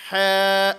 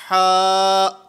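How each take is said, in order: First: The vowel is raised toward an 'eh' sound. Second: The vowel is an open, full 'ah' sound. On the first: The speaker calls it wrong. "ये आवाज़ नीचे की तरफ जा रही है" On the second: The speaker calls it right. "ये सही अदायगी है"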